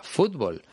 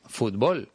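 First: "fútbol" stressed on the first syllable; "fútbol" said as FÚT-bol; Spain-style stress. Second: "fútbol" stressed on the last syllable; "fútbol" said as fut-BOL; Mexican stress. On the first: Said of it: "poner el acento sobre una". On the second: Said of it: "porque en México dicen". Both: Shown as a demonstration.

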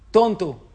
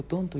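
First: Shouted "Tonto" at the mountains, higher and much louder; the boy yelling an insult back; sharp yell of "Tonto", falling; angry shout. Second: "Tonto" returned softer, like a distant echo; quiet echoed "Tonto"; echo reply. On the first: El niño dice. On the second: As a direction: let it come back faintly from the hills. Le contesta el eco. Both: Retold or imitated.

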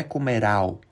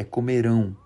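First: "comerau" ends in an open oral au, no nasal; wrong oral ending. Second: "comerão" ends in a nasal ão, mouth closing; nasal ending. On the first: Teacher mimicking the students' mistake, mock wrong oral ending. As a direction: say "comerau" the Spanish way, mouth open. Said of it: "Não é comerau". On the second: Teacher giving students the correct form, nasal ending. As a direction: finish "comerão" through the nose. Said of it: "é comerão". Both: Shown as a demonstration.

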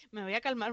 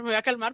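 First: Soft, hushed self-calming; forcing herself calm. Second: Said in the usual way. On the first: Retold or imitated. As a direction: mutter it under your breath to calm down. (para sí, en voz baja, calmándose) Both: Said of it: "en plan de".

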